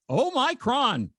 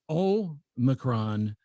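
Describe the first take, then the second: First: Omicron said as oh-MY-cron, higher and slow; mock the oh-MY-cron version, pitched up; wrong pronunciation. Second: Omicron very slow, stress on the first O; correct pronunciation. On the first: Host contrasting the wrong way to say Omicron. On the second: Host repeating the right way to say Omicron. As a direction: draw out Omicron slowly, hitting the first syllable. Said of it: "the emphasis is on the first syllable". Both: Shown as a demonstration.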